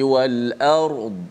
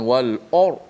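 First: The vowel is thin and only the r is thick. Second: The vowel is thick, sounding like o. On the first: The speaker calls it right. "Ard yang tebalnya ra sahaja. Hamzah tu tak tebal" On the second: The speaker calls it wrong. "bukan wal or. Oh dah dah tebal o pula pun"

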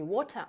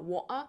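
First: The middle t is a clear t. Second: The middle t is a glottal stop. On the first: The speaker calls it wrong. "не water" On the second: The speaker calls it right. "а water"

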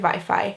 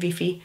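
First: The word is said with English-like pronunciation. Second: The word is said with adapted local pronunciation. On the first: "Míg Mexikóban azt mondanák" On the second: "Spanyolországban is azt mondanák"

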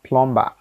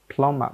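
First: The b in the middle is sounded. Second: The b in the middle is silent. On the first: The speaker calls it wrong. "not plumber" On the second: The speaker calls it right. "B is automatically silenced"

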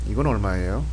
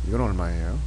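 Both takes have the same delivery.

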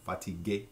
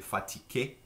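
First: The word is said without a K sound. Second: The word is said with a K sound. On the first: "rather than the fatigué" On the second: "with the K sound"

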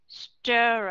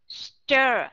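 Both takes have the same delivery.

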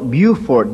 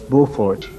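First: The name is said the local Southern way. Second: The name is said the French way. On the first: This is how local residents say the name. "They call it Beaufort down there" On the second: This is the original French way of saying the name. "That's the French pronunciation"

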